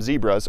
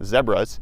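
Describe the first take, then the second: First: It is said with an American 'zee' vowel. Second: It is said South African style, rhyming with Deborah.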